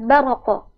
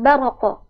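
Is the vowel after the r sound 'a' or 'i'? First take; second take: a; a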